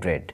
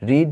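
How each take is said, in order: First: The vowel is short, like 'e'. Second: The vowel is long, like 'ee'. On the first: It is the past form of the verb. "Second form এবং third form হচ্ছে রেড রেড" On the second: It is the present form of the verb. "First form হলে উচ্চারণ হতো রিড"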